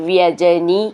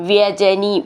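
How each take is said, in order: Both takes have the same delivery.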